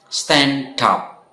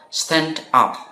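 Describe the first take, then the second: First: The two words are linked together. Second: The two words are said separately. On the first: "Stand dan up itu digabung menjadi satu" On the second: "kita bisa kalian baca juga dengan terpisah juga tidak masalah"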